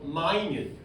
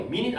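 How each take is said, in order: First: "minute" said as my-NYOOT, meaning tiny; correct adjective pronunciation. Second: "mean it" said as MIN-it, short i in both syllables; wrong pronunciation. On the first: Teacher giving students the word for tiny, "minute" pronounced my-NYOOT. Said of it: "발음은 똑같지만 minute 일 분 할 때 minute이 아니라". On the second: Teacher rejecting the time-unit reading for students, pronounced MIN-it. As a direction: say "mean it" like the sixty-second minute, MIN-it. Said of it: "아니고요". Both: Shown as a demonstration.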